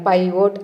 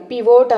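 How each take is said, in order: First: "పైవోట్" with "pie" at the start; correct pronunciation. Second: "పివోట్" with a short "pi" at the start; mispronunciation. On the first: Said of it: "అని పలకాలి". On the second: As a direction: say "పివోట్" as pee-VOTE. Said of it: "అనేది wrong pronunciation". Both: Shown as a demonstration.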